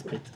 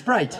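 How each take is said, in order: First: The word is said with a French accent. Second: The word is said with an American accent. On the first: "à la française" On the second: "à l'américaine"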